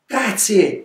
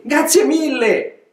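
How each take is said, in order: First: Said in the usual way. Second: Much higher, slow, drawn-out thanks; effusive thanks. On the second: Acted. Old donkey thanking the gnus, gushing. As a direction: stretch out grazie with delight. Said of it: "rispose Celso".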